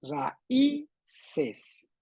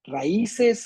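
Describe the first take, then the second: First: "raíces" syllable by syllable, ra-Í-ces; stress on Í. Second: "Raíces" without stress on the Í; unaccented Í. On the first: Teacher quizzing Samuel, "raíces" split with stressed Í. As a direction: break up "raíces", lifting the Í. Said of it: "Con acento o sin acento". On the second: Teacher quizzing Samuel, "Raíces" said without its accent. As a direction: say "Raíces" with the Í unstressed. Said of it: "Raíces sin acento". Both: Shown as a demonstration.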